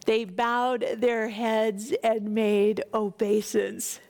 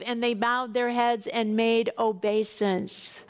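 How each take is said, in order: First: Slow, deliberate reread of the line; slow repeat. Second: Said in the usual way. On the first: Shown as a demonstration. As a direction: linger on each word of the phrase.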